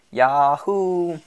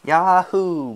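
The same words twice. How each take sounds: First: Loud, high cowboy yahoo; whooping. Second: High, loud whoop through a forced smile; strained imitation of a festive whoop; forced cheer. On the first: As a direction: let out a long festive whoop. Citizen whoops at the platform. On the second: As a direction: holler back with put-on cheer. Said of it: "forcing a smile". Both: A narrator's reading.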